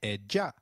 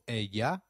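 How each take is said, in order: First: The double L sounds like a soft J. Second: The double L sounds like an English Y. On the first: This is how it is said in other areas. "a soft J" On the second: This is how it is said in some areas. "the sound of Y"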